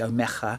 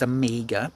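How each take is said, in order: First: The G sound is pronounced in an altered way. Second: The G sound is pronounced in a plain way. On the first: This is how some viewers say the name. The speaker calls it wrong. "something weird that you do with the G" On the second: This is how a film character says the name. The speaker calls it right. "it's Amiga"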